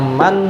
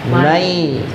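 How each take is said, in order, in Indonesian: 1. Kata itu berakhir dengan bunyi n yang jelas. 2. Bunyi n menyatu menjadi bunyi semivokal sengau. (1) "Yang aslinya bunyinya man" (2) "menjadi mai ... harus ada dengungnya"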